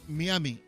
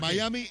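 First: The name is pronounced the Spanish way. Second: The name is pronounced the English way. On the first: "Y en castellano es Miami" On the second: "Miami es en inglés"

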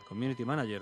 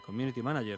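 First: It is said with moderate English-like sounds. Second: The same.

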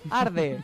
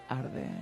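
First: It is said in a plain, non-creaky voice. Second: It is said with a creaky vocal fry.

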